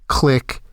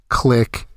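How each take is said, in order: No difference in how they are said.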